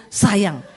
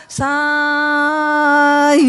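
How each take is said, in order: First: Said in the usual way. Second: "Sayang" with a very long, loud first syllable; higher, endlessly held "Saaa-yang"; drawn-out stroke. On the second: Shown as a demonstration. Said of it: "kalau panjang kan".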